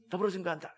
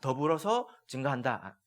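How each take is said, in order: First: It is said quickly as one word. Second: It is said slowly as two separate words. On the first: It is a single word meaning to testify together. The speaker calls it right. "빨리 말해야 돼" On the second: Two separate actions are meant. The speaker calls it wrong. "이게 아니라"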